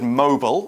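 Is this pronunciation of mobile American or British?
American. It is said in an American accent.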